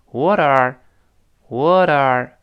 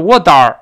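First: What are with the t softened to a light flap, slow; flapped t in what are. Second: What are with a hard, forceful t, louder; forced hard t. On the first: Teacher modelling the softened t, slowly. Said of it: "它带着都震起来了". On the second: Teacher showing the wrong, forceful way. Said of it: "不能用力，不能说". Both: Shown as a demonstration.

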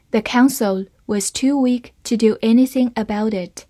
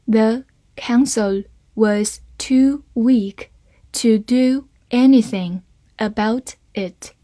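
First: Said in the usual way. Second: Slow, careful model reading. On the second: Shown as a demonstration. Teacher reading the sentence slowly for students, slow and clear. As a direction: read it slowly, word by word. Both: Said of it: "好，慢慢来读".

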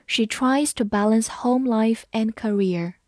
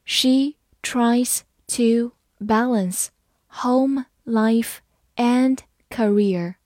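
First: Said in the usual way. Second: Very slow, word by word; slow reading. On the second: Shown as a demonstration. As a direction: read it slowly with a gap after each word. (慢读，一词一顿) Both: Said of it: "好，慢读一遍".

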